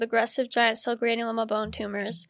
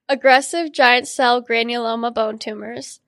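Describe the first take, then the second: First: It is said a little fast. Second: It is said slowly and clearly.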